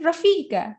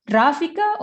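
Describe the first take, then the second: First: RAFIKA stressed as ra-FI-ka; second-syllable stress. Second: RAFIKA stressed as RA-fika; first-syllable stress. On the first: Teacher quoting a question about their name, second-syllable stress. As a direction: lengthen and lean on the FI in RAFIKA. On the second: Teacher quoting a question about their name, first-syllable stress. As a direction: punch the RA at the start of RAFIKA. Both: Shown as a demonstration. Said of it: "which one is the stress".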